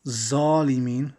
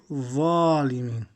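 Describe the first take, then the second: First: Slow zalimin with a plain z; wrong zalimin. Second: Zalimin with a heavy, full-mouth z; proper Arabic zalimin; correct zalimin. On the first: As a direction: say zalimin with a buzzing z. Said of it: "We don't say". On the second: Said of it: "but we say". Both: Shown as a demonstration.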